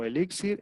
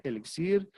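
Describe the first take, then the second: First: "elixir" stressed on the middle syllable, e-LÍ-xir; acento ambiguo, con tilde. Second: "elixir" stressed on the last syllable, e-li-XIR; acento ambiguo, sin tilde. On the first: («elixir» con acento en la segunda sílaba: elíxir) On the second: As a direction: put the stress of "elixir" at the end. («elixir» con acento en la última sílaba) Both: Shown as a demonstration. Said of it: "con o sin acento".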